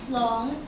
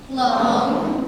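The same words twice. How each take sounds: First: "Long." said as Mandarin lóng, short, rising at the end; Chinese word "Long". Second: "Long." said louder and held longer, falling, for the class to copy; called-out Chinese word. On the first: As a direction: introduce "Long." with a questioning rise. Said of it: "This is how you say dragon in Chinese". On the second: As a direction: call out "Long." for everyone to repeat. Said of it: "Please follow me". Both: Shown as a demonstration.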